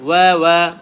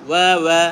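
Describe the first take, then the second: Both takes have the same delivery.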